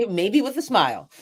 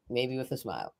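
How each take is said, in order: First: Higher, laughing lightly into the words; amused afterthought. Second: Much softer, under the breath; soft aside. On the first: Poet adding a joking afterthought to her advice, amused. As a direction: say it through a small laugh. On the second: Poet echoing her own afterthought, soft aside. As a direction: drop it to a quiet echo. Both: Real, not acted.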